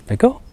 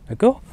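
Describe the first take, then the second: Both takes have the same delivery.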